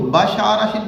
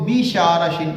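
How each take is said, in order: First: بشارشن as basharashin; بشارشن opening on a short ba; بشارشن with a light first syllable; short-a reading. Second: بیشارشن opening on a long bay; بیشارشن as bay-sharashin; بیشارشن with a lengthened first vowel; long-e reading. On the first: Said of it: "کچھ لوگ بشارشن پڑھتے ہیں". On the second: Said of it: "کچھ اس کو بیشارشن پڑھتے ہیں". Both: Shown as a demonstration.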